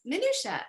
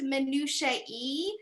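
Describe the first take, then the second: First: The word ends with an 'uh' sound. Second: The word ends with an extra 'ee' sound. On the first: The speaker calls it wrong. "there's all these words that over and over I would say wrong" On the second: The speaker calls it right. "have you heard it pronounced minutia e?"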